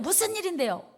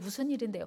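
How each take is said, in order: First: The question sounds harsh and irritated. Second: The question sounds soft and gentle. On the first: The speaker calls it wrong. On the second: The speaker calls it right.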